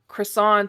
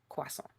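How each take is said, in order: First: The word is said with an American pronunciation. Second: The word is said with a French pronunciation.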